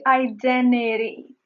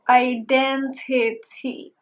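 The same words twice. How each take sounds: First: The T after the N is silent. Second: The T after the N is pronounced. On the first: "since I speak fast, I chose to say identity" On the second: "I may have said identity"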